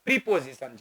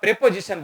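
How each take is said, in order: First: The first syllable has a long 'ee' vowel. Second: The first syllable has a short 'eh' vowel. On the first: This is the standard English pronunciation. The speaker calls it right. "એનો સાચો ઉચ્ચાર પ્રીપોઝિશન છે" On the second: This is how Gujarati speakers usually say it. The speaker calls it wrong. "આપણે ગુજરાતીમાં પ્રેપોઝિશન બોલીએ"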